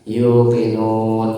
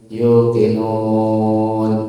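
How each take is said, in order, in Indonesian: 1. Huruf mad panjang ditahan dua ketukan. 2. Huruf mad panjang ditahan empat ketukan.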